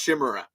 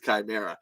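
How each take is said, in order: First: The word begins with a sh sound. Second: The word begins with a k sound. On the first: The speaker calls it wrong. "thought that the word chimera was pronounced chimera as a child" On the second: The speaker calls it right. "it is chimera"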